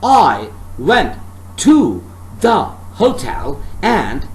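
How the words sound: Every single word is given strong stress. The speaker calls it wrong. "If I read the sentence like that, so it sounds weird"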